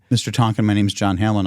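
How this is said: The voice sounds calm and composed. The caller had regained composure. The speaker calls it right.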